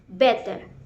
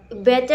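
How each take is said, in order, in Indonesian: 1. Diucapkan dengan aksen Inggris. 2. Diucapkan dengan aksen Amerika. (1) "in British is" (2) "in American"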